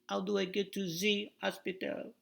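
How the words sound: The h is dropped, in a French accent.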